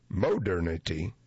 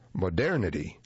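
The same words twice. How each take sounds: First: The stress is on the first syllable. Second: The stress is on the second syllable. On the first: The speaker calls it wrong. "not modernity" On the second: The speaker calls it right. "the ending pulls the accent along with it"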